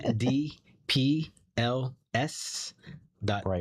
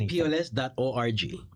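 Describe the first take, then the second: First: It is said at a slower pace. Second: It is said at a quicker pace.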